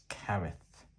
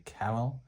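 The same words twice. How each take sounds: First: Careth, ending in th instead of L; Welsh-style th ending. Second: Carol, ending in a plain L. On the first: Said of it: "comes out as a th sound". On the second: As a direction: say Carol with an L sound at the end. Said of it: "I know some people say". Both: Shown as a demonstration.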